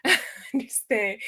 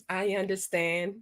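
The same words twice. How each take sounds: First: Laughing. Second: Said in the usual way. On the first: Real, not acted. Laughing at the honey buns answer.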